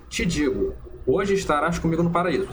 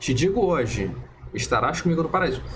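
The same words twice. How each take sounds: First: The pause comes right before 'hoje'. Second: The pause comes right after 'hoje'. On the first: The man would be in paradise that same day. "no primeiro exemplo que eu dei" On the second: The promise is made today, not the arrival. "se a gente muda aqui a, a vírgula"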